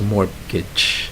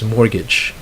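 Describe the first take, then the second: First: A T sound is heard in the middle. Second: No T sound is heard in the middle. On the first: The speaker calls it wrong. "I think I've heard some Filipinos pronounce that as mortgage" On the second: The speaker calls it right. "That's actually a silent T"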